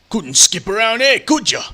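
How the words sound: It is said in a put-on Australian accent.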